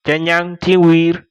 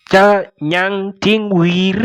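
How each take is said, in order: First: Said in the usual way. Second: "Cha nyang ting wir" said slowly, syllable by syllable, a bit higher; slow model reading. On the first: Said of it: "teacher repeats at normal pace". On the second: Shown as a demonstration. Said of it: "teacher models the phrase slowly".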